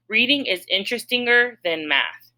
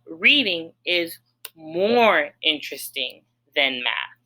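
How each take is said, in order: First: Mock trying a wrong form, voice a little higher; deliberately wrong form. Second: Said in the usual way. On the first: Shown as a demonstration. Teacher trying a wrong form for students, mock trial. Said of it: "Let me try it". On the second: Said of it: "I would say".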